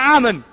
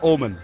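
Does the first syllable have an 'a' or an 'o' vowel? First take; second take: a; o. First: The first syllable has an open 'a' vowel. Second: The first syllable has a rounded 'o' vowel. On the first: The speaker calls it right. "你看阿伯阿嬷阿拉阿们" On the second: The speaker calls it wrong. "你刚变成哦就很不好听了"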